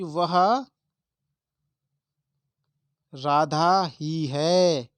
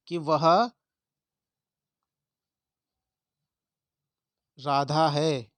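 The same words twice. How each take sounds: First: ही drawn out very slowly and loud; stress on ही. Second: Said in the usual way. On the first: Shown as a demonstration. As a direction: hammer ही slowly and loudly. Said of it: "इसे मैंने और जोर दे दिया है". (ही पर बहुत ज़ोर, बहुत धीरे और ऊँचा) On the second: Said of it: "ये सिंपल सा है".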